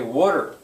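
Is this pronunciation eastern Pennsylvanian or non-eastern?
eastern. It is said with the eastern Philadelphia-area pronunciation. "if people live in eastern Pennsylvania, especially around Philadelphia, they're going to say"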